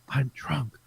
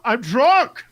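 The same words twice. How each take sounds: First: It is said softly and quietly. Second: It is said loudly, almost shouted.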